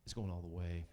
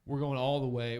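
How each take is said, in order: First: Said in the usual way. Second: Punchier, louder second take; louder repeat. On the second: Real, not acted. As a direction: hit it harder the second time.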